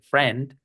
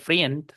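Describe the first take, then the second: First: The vowel is a single 'e' sound. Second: The vowel sounds like 'i' then 'e'. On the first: The speaker calls it right. "se dice friend con E" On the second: The speaker calls it wrong. "no se dice friend"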